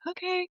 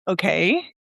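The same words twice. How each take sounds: First: It sounds surrendering. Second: It sounds questioning.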